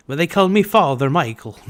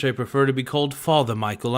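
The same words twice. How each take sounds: First: Hammed-up bad Irish accent, higher and louder; terrible Irish accent. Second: Said in the usual way. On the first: Joking on stream in a terrible Irish accent. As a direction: put on a cheesy Irish priest accent. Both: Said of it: "It's just a terrible fucking accent".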